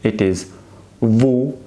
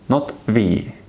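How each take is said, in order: First: The letter is named as in Italian. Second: The letter is named as in English. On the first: The speaker calls it right. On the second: The speaker calls it wrong.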